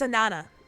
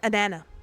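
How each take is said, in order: First: The final S sound is left silent. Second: The same.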